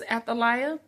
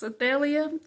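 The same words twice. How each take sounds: First: The name is given its English pronunciation. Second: The name is given its Hebrew pronunciation. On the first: "English is Athaliah" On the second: "in the um, Hebrew, it's Athaliah"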